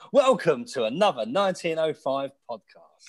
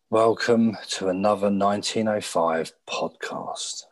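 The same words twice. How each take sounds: First: It is said in an upbeat, energetic way. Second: It is said in a flat, low-energy way.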